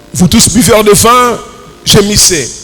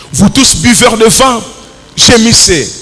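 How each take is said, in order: No difference in how they are said.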